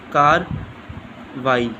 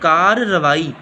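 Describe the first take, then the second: First: The word has a single r, as karwai. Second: The word has a doubled r, as kar-ravai. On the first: The speaker calls it wrong. "ये लफ्ज़ गलत है" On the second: The speaker calls it right. "दो रे के साथ आना है"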